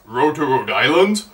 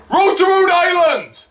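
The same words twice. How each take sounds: First: Lower, querying repeat with rising end; questioning echo. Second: High-pitched song request; re-enacted shout. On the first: Retold or imitated. Seth replying to a heckler, questioning echo. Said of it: "And he says". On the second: Fan requesting Family Guy song, high shout. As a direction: yell the request up to the stage. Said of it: "I also shouted at him".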